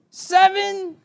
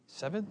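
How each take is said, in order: First: High, loud, drawn-out count; kid's shouted count. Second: Puzzled echo. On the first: Little brother shouts the next count from the back seat. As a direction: yell the number like a sulking child. Angry kid counting restaurants. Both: Retold or imitated.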